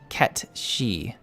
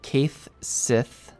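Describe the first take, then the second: First: The name is said as one word 'Ketchi'. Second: The name is read as two spelled-out words. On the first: The speaker calls it right. "is Irish and is actually pronounced Ketshi" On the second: The speaker calls it wrong. "no one ever gets this right because it's spelled funny"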